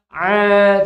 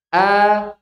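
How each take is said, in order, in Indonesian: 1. Dimulai dengan bunyi ain yang ditekan dari tenggorokan bagian tengah. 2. Dimulai dengan hamzah dari tenggorokan bagian bawah. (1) "baru ain" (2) "Pertama hamzah"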